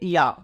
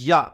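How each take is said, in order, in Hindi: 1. यह अक्षर बहुत नरमी से और कमज़ोरी से कहा जाता है। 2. यह अक्षर बहुत सख्ती से और ज़ोर से कहा जाता है। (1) "बिल्कुल नरमी से" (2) "बहुत ज़्यादा सख्ती पे ले जाते हैं"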